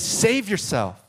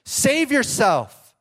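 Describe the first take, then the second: First: Higher, slow taunt; mocking shout. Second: Much higher, loud, slow jeer; the crowd jeering harder, loud and slow; louder mocking shout. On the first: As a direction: draw the taunt out slowly. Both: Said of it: "the people shouted".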